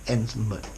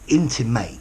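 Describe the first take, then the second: First: The last syllable is weak, not like mate. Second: The last syllable sounds like the word mate. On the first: It is the adjective meaning personal or close. "Intimate, personal" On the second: It is the verb meaning to suggest indirectly. "ends with the word mate"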